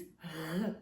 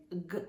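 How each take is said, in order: First: G as a throaty, continuous Greek gamma; soft Greek gamma. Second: G as a hard stop, as in go; hard g sound. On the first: Teacher showing the right sound, g as a throaty Greek gamma. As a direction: say g as a soft voiced fricative in the throat. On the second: Teacher showing what not to say, g as a hard stop. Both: Shown as a demonstration. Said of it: "be careful not to say g".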